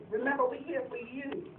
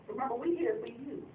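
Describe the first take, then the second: No difference in how they are said.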